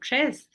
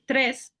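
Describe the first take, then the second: First: It is said in a Costa Rican accent. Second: It is said in a standard Spanish accent.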